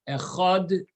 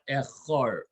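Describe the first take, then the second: First: The word ends with a d sound. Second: The word ends with an r sound. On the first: The speaker calls it right. "the dalet should sound like a dalet" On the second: The speaker calls it wrong. "and not like a resh"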